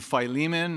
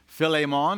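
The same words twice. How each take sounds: First: The name has the usual English pronunciation. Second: The name has a Greek-style pronunciation.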